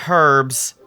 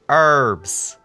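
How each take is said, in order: First: The H at the start is pronounced. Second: The H at the start is silent. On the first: The speaker calls it wrong. "not herbs" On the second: The speaker calls it right. "The H is silent"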